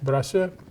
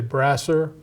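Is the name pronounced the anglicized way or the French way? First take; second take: French; anglicized. First: The name is pronounced with French sounds. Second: The name is pronounced with English sounds. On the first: "is how we pronounce it in French" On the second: "you might say"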